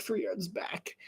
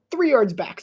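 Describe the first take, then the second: First: "three yards back" whispered; whispered echo of "three yards back"; whispered repeat. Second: Said in the usual way. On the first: Shown as a demonstration. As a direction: repeat it under your breath.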